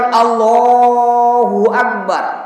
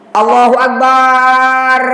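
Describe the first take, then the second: First: The vowel in Allah is long; bar is short. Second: The vowel in bar is drawn out long. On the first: The speaker calls it right. "Jadi betul" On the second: The speaker calls it wrong. "itu terbalik. Barnya panjang"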